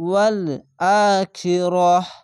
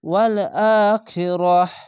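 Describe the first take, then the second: First: The final word ends with a silent 'h' sound. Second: The same.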